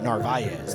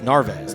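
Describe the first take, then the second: First: The name is said the Spanish way. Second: The name is said the English way. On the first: The speaker calls it wrong. "Narvaez is the Spanish saying of that" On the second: The speaker calls it right. "It's Narvez"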